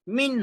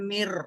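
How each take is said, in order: First: The syllable ends with an n sound. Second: The syllable ends with an r sound. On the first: The speaker calls it wrong. "मीम नून जेर मिन होता" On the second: The speaker calls it right. "तो नून को नहीं पढ़ेंगे। मीम रॉ जेर मिर"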